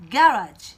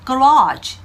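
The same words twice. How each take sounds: First: Garage in British English, stress on the first syllable. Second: Garage in American English, stress on the second syllable. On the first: Teacher demonstrating the British pronunciation of garage. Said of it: "영국 발음이 되면은". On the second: Teacher demonstrating the American pronunciation of garage. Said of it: "미국 발음으로는요". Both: Shown as a demonstration.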